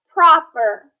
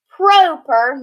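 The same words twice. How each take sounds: First: The first vowel sounds short. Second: The first vowel sounds long. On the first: The speaker calls it right. "it's proper" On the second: The speaker calls it wrong.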